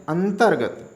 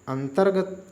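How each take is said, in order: The two takes are said the same way.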